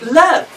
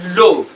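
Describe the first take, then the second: First: The vowel is a short 'uh' sound. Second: The vowel is an 'oh' sound. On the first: The speaker calls it right. "that sound in the throat ... looks like an ah sound" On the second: The speaker calls it wrong. "It's not love"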